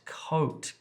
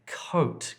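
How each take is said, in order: First: The vowel is a long O sound. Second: The vowel is a long O sound.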